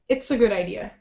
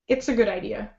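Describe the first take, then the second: First: The words are reduced and run smoothly together. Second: The same.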